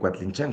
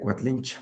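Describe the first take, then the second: First: The name ends with an n sound. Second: The name ends with a vowel sound. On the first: This is how most people say it today. "en la época moderna, pues la mayoría Cuatlinchan" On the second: This is the original form of the name. "lo correcto sería Cuatlincha"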